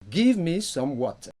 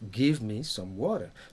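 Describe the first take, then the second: First: British accent, with a clear T in water. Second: American accent, with the T sounding like D. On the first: "Ici, le T est prononcé" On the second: "The American will say"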